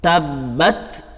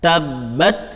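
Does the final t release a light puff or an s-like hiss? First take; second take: light puff; light puff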